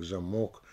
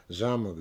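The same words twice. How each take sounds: First: "замок" stressed on МОК, rising; stress on last syllable. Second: "замок" stressed on ЗА, falling; stress on first syllable. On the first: Lecturer showing meaning change, end-stressed "замок". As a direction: save the beat for МОК in "замок". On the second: Lecturer showing meaning change, first-syllable "замок". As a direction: lean on ЗА in "замок". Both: Shown as a demonstration. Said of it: "на какой слог падает ударение".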